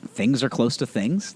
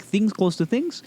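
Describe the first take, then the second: First: Said in the usual way. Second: Higher and slower, mock-wise doctor. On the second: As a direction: parody the doctor's explanation, pitched up and slowed. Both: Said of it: "that's how he describes it".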